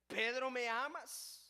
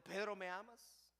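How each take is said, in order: First: Louder, slow question with weight on Pedro; insistent question. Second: Said in the usual way. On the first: Acted. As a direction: press him with the question. The Lord asks Pedro again. (el Señor insiste ante Pedro, fuerte y lento)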